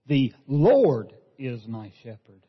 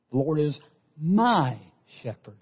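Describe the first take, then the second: First: "Lord" punched and drawn out in a slow read; slow read, "Lord" the loudest word; stress on LORD. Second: Slow, leaning on "my"; stress on MY. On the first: Preacher savoring the Psalm word by word, stressing "Lord". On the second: Preacher making the Psalm personal, stressing "my". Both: Shown as a demonstration. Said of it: "emphasizing each one of those words".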